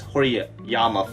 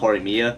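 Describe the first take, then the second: First: The name is said as Horiyama. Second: The name is said as Horimiya. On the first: The speaker calls it wrong. "I've been calling the series Horiyama" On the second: The speaker calls it right. "not Horimiya"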